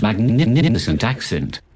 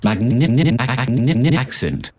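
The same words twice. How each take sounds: First: Put-on "magnificent accent" with a short stutter inside "magnificent"; synthetic posh "magnificent accent", the "nif" briefly repeating; brief glitchy stutter. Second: Put-on "Magnificent accent" stuck in a long machine stutter, higher; stretched, stammering synthetic "Magnificent accent", syllables repeating over and over; drawn-out glitchy stutter. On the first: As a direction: catch on the middle of "magnificent", then finish "accent" cleanly. Synth glitches while praising its accent.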